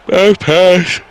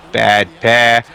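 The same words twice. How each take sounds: First: "Bad pass" stretched out through a big yawn, higher and louder. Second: Said in the usual way. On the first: Real, not acted. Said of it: "Sorry, yawning".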